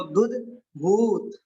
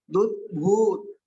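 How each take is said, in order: First: "दुध भूत" spoken slowly, with a short u in "दुध"; short u demo. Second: "दुध" with a short u, slowly; short u demo. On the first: ("दुध भूत" धीरे, छोटे ऊ के साथ) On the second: ("दुध" में छोटा ऊ, धीरे-धीरे) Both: Shown as a demonstration. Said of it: "इसमें दुध यानी कि छोटा ऊ की मात्रा है".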